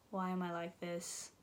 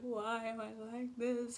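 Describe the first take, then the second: First: It is said flat and deadpan, eye-rolling. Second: It is said with strong, earnest feeling.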